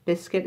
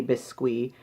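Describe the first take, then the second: First: Said in the usual way. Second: Biscuit guessed the French way, bees-KWEE; French pronunciation. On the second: Shown as a demonstration. Reviewer guessing at a label's French, French pronunciation. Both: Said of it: "My best guess in French".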